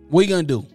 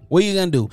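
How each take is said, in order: Both takes have the same delivery.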